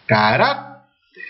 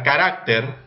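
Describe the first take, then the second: First: "Carácter" slowly stretched, stress on "rác"; acento en RÁC. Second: Said in the usual way. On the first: Shown as a demonstration. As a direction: sound out "Carácter" slowly, pushing the middle syllable "rác". ("Carácter" muy lento, con la fuerza de voz en "rác") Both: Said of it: "¿dónde lleva la mayor fuerza de voz?".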